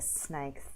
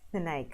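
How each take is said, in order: First: The s sound is crisp and clear. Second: The s sound is lisped like th. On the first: The speaker calls it right. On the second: The speaker calls it wrong.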